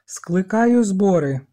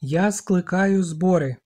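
First: Громко и медленно, сквозь одышку; объяви чётко, хоть и задыхаешься; запыхавшись, но чётко. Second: Медленно, с упором на «я»; «я» выдели, скажи медленно и громко; громко повторив. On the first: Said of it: "Задихаючись, а проте чітко". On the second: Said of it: "Ральф повторив голосно". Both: A narrator's reading.

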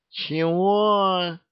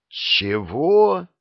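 First: High, odd-voiced drunken huh; a hiccupy, tipsy what. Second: A shocked, falling what; astonished what. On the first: Жених переспрашивает, пьяно икая. (высокое пьяное «Чего?») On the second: A narrator's reading. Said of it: "Алексей выпучил глаза". (громкое изумлённое «Чего?»)

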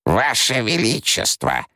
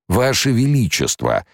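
First: High, slow cry cutting the emperor off; urgent interruption. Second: High, drawn-out pleading whine; plaintive drawl. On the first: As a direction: break in to stop him mid-rant. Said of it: "перебила ясновидящая". (ясновидящая перебивает императора, тревожный возглас) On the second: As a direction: beg the emperor pitifully. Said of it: "жалобно протянул барон". (барон жалобно тянет, умоляя императора) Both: A narrator's reading.

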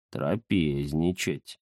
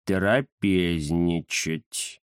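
First: «Трапезничать» медленно и низко, смакуя; просмаковать «Трапезничать». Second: «Трапезничать» очень медленно, растягивая каждый слог; многозначительно протянуть «Трапезничать». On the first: Первое слово перед повтором. (Захар смакует «Трапезничать») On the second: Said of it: "многозначительно повторил Захар". (Захар многозначительно тянет «Трапезничать») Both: Acted.

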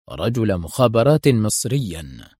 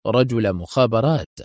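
First: رجل مخابرات repeated slowly with weight on مخابرات; slow emphatic reveal. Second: Said in the usual way. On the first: A narrator's reading. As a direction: lean on مخابرات, slow, as a revelation. Repeated reveal of his identity.

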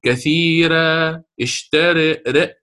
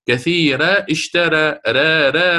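First: "كثيرة" held, then "اشترى" with mid-tongue raised toward an e sound; drawn-out demo, "ر" fronted after a plain "كثيرة". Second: "كثيرة" and "اشترى" given one identical "را" vowel; "را" repeated alike as a mistaken reading; same ra sound. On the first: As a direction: tilt the final vowel of "اشترى" toward "re". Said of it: "وسط اللسان ارتفع بعض الشيء". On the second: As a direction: make the ra of "اشترى" match "كثيرة". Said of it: "السمع واحد عندي". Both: Shown as a demonstration.

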